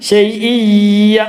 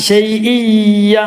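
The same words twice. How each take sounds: The two takes are said the same way.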